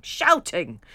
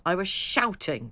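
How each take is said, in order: First: The word shouting read much louder; a loud mock yell of shouting. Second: Said in the usual way. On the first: Shown as a demonstration. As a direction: belt out shouting as if yelling.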